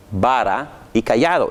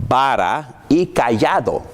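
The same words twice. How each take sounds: First: Said in the usual way. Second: Vara y cayado drawn out slowly with weight; slow and solemn vara y cayado; slow emphasis. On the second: Shown as a demonstration.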